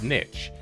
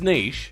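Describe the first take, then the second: First: Pronounced the way it is often said in America. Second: Pronounced the speaker's usual, non-American way. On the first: The speaker calls it wrong. "often in America, pronounced niche, which irks the hell out of me" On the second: The speaker calls it right. "which is niche"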